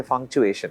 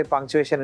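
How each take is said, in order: First: Malayali accent, "functuation" with an f for the p. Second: Said in the usual way. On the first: Shown as a demonstration. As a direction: say "functuation" the Malayali way, with an f sound instead of p. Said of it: "the pa becomes fa". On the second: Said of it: "if you say punctuation in certain parts of Kerala".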